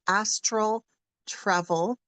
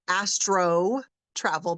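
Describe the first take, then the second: First: The first word ends in an L sound. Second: The first word ends in an O sound. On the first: The speaker calls it right. "but it's astral" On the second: The speaker calls it wrong. "sometimes people mispronounce it and call it astro travel"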